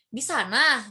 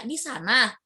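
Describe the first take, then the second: First: "Di sana" falling as a pointer; plain falling "Di sana"; statement tune. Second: "Di sana" rising in disbelief; rising doubtful "Di sana?"; question tune. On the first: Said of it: "lebih kepada petunjuk". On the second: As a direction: lift "sana" as if asking again. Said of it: "Kalau bertanya". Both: Shown as a demonstration.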